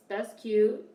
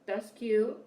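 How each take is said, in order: Both takes have the same delivery.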